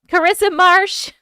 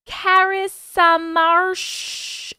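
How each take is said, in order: First: Said in the usual way. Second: CARISSA opened on a "CARE" vowel, very slow and high; drawn-out misreading. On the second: Real, not acted. Streamer greets a viewer by name, drawn-out CARE-issa. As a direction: stretch out Carissa Marsh, starting Carissa like "carry".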